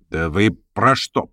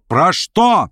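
First: Slow, held-back "про что"; wary, puzzled questioning; uneasy question. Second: Higher-pitched, exclaimed "Про что"; sudden agitated outcry; alarmed cry. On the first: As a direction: ask haltingly, beginning to worry. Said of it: "вскричал Верховенский, как бы начиная очень тревожиться". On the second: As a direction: burst out with the question, pitch leaping. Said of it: "вскричал Верховенский". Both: A narrator's reading.

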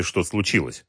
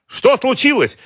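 First: Said in the usual way. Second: Very high, loud alarmed cry; shouted question. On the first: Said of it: "посоветовал Дронга". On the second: A narrator's reading. Boss calling into the corridor, shouted question. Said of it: "крикнул Георгий".

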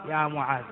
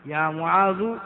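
First: «معاذ» بفتحة ظاهرة على الذال; انطق «معاذ» منتهيًا بصوت الفتحة، بنغمة هابطة; فتح آخر المنادى. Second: «معاذ» بضمة ظاهرة على الذال; انطق «معاذ» مرفوعًا منتهيًا بصوت الضمة; ضمّ آخر المنادى. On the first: («معاذَ» بالفتح، أخفض وأهدأ) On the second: («معاذُ» بالضم مع نغمة صاعدة) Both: Shown as a demonstration. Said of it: "وجهان من الإعراب".

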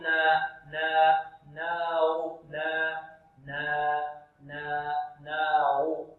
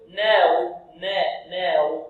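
First: Slow, low, held "نا" with a plain open a; medium open nun. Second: "ناو" with the a bent towards e; tilted nun vowel. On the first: Teacher drilling the correct way, slow open "نا". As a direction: draw out "ناو" with the nun opened evenly. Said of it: "يفتح النون فتحا متوسطا". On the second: Teacher imitating students' mistake, tilted vowel on the nun. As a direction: say "نا" thinned, leaning to "neh". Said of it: "أو يميلون فتحة النون". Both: Shown as a demonstration.

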